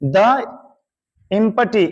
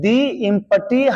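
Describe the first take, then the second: First: 'The' is said with a short 'thuh' sound. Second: 'The' is said with a long 'thee' sound. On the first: The speaker calls it wrong. "द नहीं" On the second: The speaker calls it right. "Empty में ई vowel है, इसलिए द नहीं बल्कि दी कहना है।"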